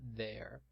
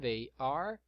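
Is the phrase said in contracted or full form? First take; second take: contracted; full. First: Words merged into one short syllable. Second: Two separate words, each fully pronounced. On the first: "Na forma contraída" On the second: "na forma extensa"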